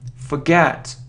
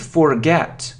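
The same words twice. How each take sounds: First: The first syllable has a weak 'fuh' vowel. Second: The first syllable has a full 'for' vowel. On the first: The speaker calls it right. "It's fa" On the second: The speaker calls it wrong. "it isn't forget, and it isn't forget, not for"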